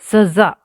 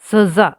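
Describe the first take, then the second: The two takes are said the same way.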